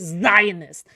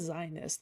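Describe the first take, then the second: First: The initial Z is said hard and exaggerated. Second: The initial Z is said softly and normally. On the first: The speaker calls it wrong. "with a hard Z" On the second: The speaker calls it right. "He could have just said Zionist"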